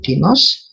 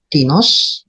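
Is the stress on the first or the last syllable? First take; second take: last; first. First: The stress is on the last syllable. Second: The stress is on the first syllable. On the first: It means of someone or of something. "kata ganti tak tentu mempunyai aksen pada suku kata terakhir" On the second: It asks whose or of what. "Kata ganti penanya mempunyai aksen pada suku kata pertama"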